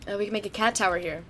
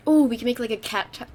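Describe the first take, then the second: First: Said in the usual way. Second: Talking around gum; words slurred by gum in mouth; chewing gum. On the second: Real, not acted. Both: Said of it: "I have gum".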